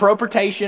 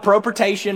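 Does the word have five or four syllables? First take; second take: Four; Four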